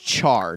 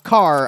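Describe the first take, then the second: First: The word begins with a ch sound. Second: The word begins with a k sound. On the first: The speaker calls it right. "I believe it's char" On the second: The speaker calls it wrong. "not car"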